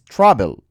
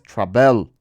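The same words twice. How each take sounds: First: The stress is on the first syllable. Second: The stress is on the second syllable. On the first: The speaker calls it right. "el acento, está en la A. Es travel" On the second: The speaker calls it wrong. "no es travel"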